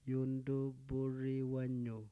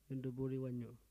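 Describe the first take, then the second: First: It is said very slowly. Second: It is said at normal speed.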